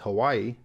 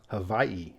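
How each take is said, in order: First: It is said smoothly with a W sound. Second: It is said with a V sound. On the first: "The mainlander tourist way" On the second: "with a W having a V sound"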